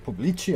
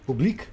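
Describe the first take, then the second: First: "Pubblici" ending in chee, questioning; unsure Italian pronunciation. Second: "Public" with a hard k ending, questioning; unsure pronunciation. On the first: Streamer second-guessing the Italian word, unsure pronunciation. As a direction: try "Pubblici" as POO-blee-chee, rising. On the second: Streamer doubting their Italian reading, unsure pronunciation. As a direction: try "Public" as POO-bleek, rising. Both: Shown as a demonstration. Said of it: "try and pronounce the Italian".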